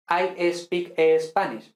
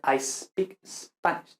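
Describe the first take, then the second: First: I speak Spanish with an extra E before speak, slowly; the wrong Spanish-style espeak; wrong added E. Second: I speak Spanish with speak starting straight on S, slowly and softer; the right way, no E before speak; correct S cluster. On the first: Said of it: "pues eso está mal". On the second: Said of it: "debería ser". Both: Shown as a demonstration.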